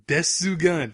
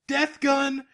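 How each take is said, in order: First: The name is said with Japanese-style added vowels. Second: The name is said with plain English pronunciation. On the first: The speaker calls it right. "Thank you" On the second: The speaker calls it wrong. "you said it wrong"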